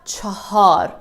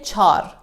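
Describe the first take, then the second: First: The word is said with two syllables. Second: The word is said with one syllable. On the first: This is how it is written. The speaker calls it wrong. "It is written in this way" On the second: This is how people really say it. The speaker calls it right. "We say char"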